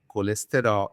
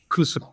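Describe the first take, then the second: First: All the vowels are pronounced fully and strongly. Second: The vowels are rushed and nearly dropped. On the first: "in Brazil we say colesterol" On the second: "In Portugal they say cholesterol"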